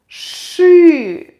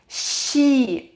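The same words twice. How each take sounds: First: The sh sound is hard, not softened. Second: The sh sound is soft, palatalized. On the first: The speaker calls it right. "is pronounced only like she" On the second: The speaker calls it wrong. "We can't, we can't read it like she"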